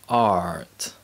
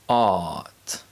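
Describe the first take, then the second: First: An R sound is pronounced after the vowel. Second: No R sound is pronounced after the vowel. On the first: "in American English, the letter R always produces the R sound" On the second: "In British English"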